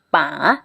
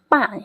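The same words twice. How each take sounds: First: The syllable is said with tone three. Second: The syllable is said with tone four. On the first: "Kalau dikasih nada tiga" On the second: "Kalau dikasih nada empat"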